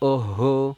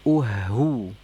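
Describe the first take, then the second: First: The vowel sounds like an o. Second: The vowel sounds like a rounded u. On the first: The speaker calls it wrong. "jadi jangan oho" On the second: The speaker calls it right. "tapi uhu"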